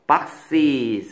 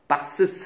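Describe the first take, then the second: First: The word ends with 'ee' then a z sound. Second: The word ends with 'uh' then an s sound. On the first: The speaker calls it right. "이렇게 되겠죠" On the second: The speaker calls it wrong. "이렇게 안 하겠죠"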